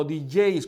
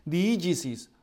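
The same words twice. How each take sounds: First: "digeis" as the shorter Greek variant; alternative pronunciation. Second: "diégesis" as a Greek word, sounded out in full; first pronunciation. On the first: Teacher showing a Greek word's variants, second pronunciation "digeis". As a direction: say "digeis", the middle run into one gliding syllable. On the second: Teacher showing a Greek word's variants, first pronunciation of "diégesis". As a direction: say the Greek "diégesis" with all its syllables. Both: Shown as a demonstration. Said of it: "porque hay dos pronunciaciones".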